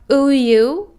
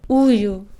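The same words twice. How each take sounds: First: The word is said long and forcefully. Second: The word is said short and soft. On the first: The speaker calls it wrong. "It's not" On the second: The speaker calls it right. "Short and soft"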